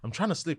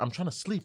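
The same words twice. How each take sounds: First: It is said in an irritated, agitated tone. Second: It is said in a calm, nice tone.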